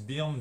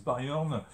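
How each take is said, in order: First: Byrne said as "Birn", with an ee-like vowel; variant pronunciation. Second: Byrne stretched to "Ba-yorn"; alternative pronunciation. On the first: Reviewer shows viewers how some people say it, Byrne as "Birn". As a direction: say Byrne like French "birne". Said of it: "c'est pas facile à prononcer, certains disent". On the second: Reviewer shows viewers how others say it, Byrne as "Bye-orn". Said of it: "d'autres disent". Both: Shown as a demonstration.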